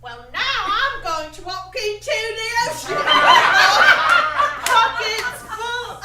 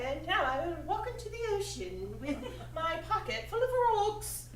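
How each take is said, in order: First: Loud, high mock British stage voice; hammed-up British tragic line; British accent. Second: Put-on posh English accent, half-laughing; a laughing try at a Downton Abbey English accent. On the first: Actress tries a British accent on her tragic line. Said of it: "a British accent might, you know, work better". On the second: Actress redoes the line in a Downton Abbey accent. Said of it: "more like a Downton Abbey kind of accent".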